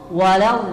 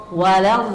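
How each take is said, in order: The two takes are said the same way.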